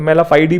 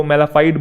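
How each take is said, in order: First: मेलाफाइडी ending in a sounded "dee"; variant pronunciation. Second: मेलाफाइड ending on a closed "d"; alternative pronunciation. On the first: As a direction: say मेलाफाइडी with an extra final ee syllable. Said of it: "कुछ लोग इसे फाइडी भी बोलते हैं". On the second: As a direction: say मेलाफाइड with no ee after the d. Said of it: "वो pronunciation चलता है ऊपर नीचे". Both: Shown as a demonstration.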